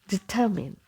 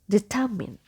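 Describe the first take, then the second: First: The last syllable has a short i sound. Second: The last syllable has a short i sound.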